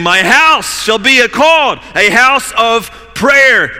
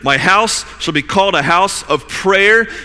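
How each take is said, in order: First: It is shouted loudly and forcefully. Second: It is said in a calm reading voice.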